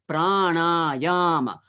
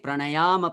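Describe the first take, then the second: First: The word is said with three separate stresses. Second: The word is said with fewer than three stresses. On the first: The speaker calls it right. "three times stress" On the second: The speaker calls it wrong. "you cannot say"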